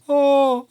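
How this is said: The cry sound has a dark, covered quality. The speaker calls it right. "you can hear that darker quality"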